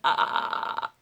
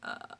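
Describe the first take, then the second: First: A forced, pushed, strained sound in the throat. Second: A relaxed, low, creaky fry with no pushing. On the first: The speaker calls it wrong. "I'm not going" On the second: The speaker calls it right. "it's like I just woke up in the morning. ... I'm not forcing it"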